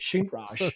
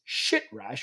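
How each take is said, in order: First: The first syllable sounds like 'shin'. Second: The first syllable sounds like 'shit'. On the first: The speaker calls it right. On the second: The speaker calls it wrong. "which is not how you pronounce it"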